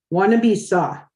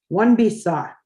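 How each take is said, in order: Both takes have the same delivery.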